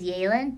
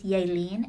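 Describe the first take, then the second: First: The name is said in a harder, anglicized way. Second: The name is said in a softer way. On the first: This is how outsiders say the name. The speaker calls it wrong. "that's the way, like, all my teachers have always pronounced it" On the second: This is how the family says the name. The speaker calls it right. "The way my parents pronounce it is Yaelin, and I think that's, like, way prettier. Like, it's softer"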